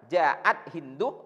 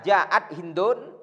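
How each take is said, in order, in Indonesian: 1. Namanya diakhiri dengan vokal, tanpa n. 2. Namanya diakhiri dengan bunyi n tambahan. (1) "lebih bagus kita baca" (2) "boleh cara membacanya ditanwin"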